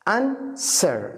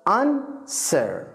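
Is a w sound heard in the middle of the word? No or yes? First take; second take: no; no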